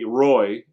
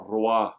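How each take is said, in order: First: The name is said with an English accent. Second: The name is said with a French accent. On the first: "be really English" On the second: "you're a little bit French"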